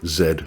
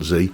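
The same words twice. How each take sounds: First: The letter is said the British way, zed. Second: The letter is said the American way, zee.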